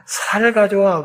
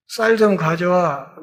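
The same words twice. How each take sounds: First: 경상도식으로 '살' 하고 예사소리로; Gyeongsang pronunciation. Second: Said in the usual way. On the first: Shown as a demonstration. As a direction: soften 쌀 to 살, no tense ssang-siot. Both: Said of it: "쌍시옷 소리를 못해".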